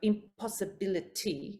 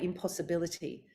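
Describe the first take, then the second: First: Each syllable is separated slowly and exaggerated. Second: The word flows smoothly at a natural speed. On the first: The speaker calls it wrong. "it doesn't mean you're going to go impossibility" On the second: The speaker calls it right. "you'll say impossibility"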